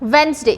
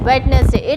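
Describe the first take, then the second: First: The d in the middle is silent. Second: The d in the middle is pronounced. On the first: The speaker calls it right. "D is silent in this" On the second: The speaker calls it wrong. "We should not say it as Wednesday"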